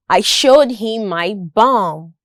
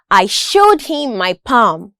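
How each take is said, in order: First: Bum begun with a voiced B; B sound. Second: Palm begun with a clear puffed P; P sound. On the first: Listening practice for learners, clear B in bum. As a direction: make the B in bum distinct from P. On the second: Listening practice for learners, crisp P in palm. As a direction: make the P in palm distinct from B. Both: Shown as a demonstration. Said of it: "listening practice with respect to the consonant sounds".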